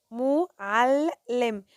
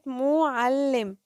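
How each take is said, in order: First: "معلم" very slowly, ل closing one syllable and opening the next; drawn-out teacher's split of "معلم". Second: "معلم" slowly, the ل sounded twice; teacher's slow "معلم" with a clear shadda; doubled consonant. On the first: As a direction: break "معلم" into three parts with pauses. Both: Shown as a demonstration. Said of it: "نطقت هنا عندي اللام مرتين".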